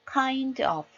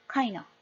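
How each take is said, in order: First: "kind of" sounded out fully, kain-d-of; "kind of" with each syllable distinct; full kind of. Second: "kind of" squeezed to kain-uh; "kind of" linked, final f dropped; fewer syllables. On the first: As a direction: give "kind of" every sound, higher. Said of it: "이렇게 발음하는 거랑". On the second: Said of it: "음절수가 줄어들죠". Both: Shown as a demonstration.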